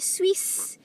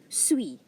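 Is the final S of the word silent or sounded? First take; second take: sounded; silent. First: The final S is clearly pronounced. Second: The final S is left silent. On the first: The speaker calls it wrong. "You don't say Swiss" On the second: The speaker calls it right. "the S is silent. you say suis"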